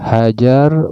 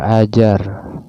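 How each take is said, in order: First: The word begins with an h sound. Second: The word begins with a glottal stop. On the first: "hamzahnya diganti ha, kemudian dibaca Hajar" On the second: "Hajar itu asalnya Ajar"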